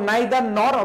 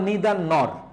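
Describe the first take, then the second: First: The first vowel sounds like 'eye'. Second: The first vowel sounds like 'ee'.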